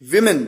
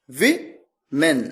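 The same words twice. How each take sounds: First: Said in the usual way. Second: विमेन drawn out very slowly, each syllable clear; teacher modelling विमेन very slowly; slow clear pronunciation. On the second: Shown as a demonstration. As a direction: stretch विमेन slowly so students catch the vowels. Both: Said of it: "मैंने कहा".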